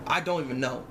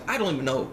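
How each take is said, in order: Both takes have the same delivery.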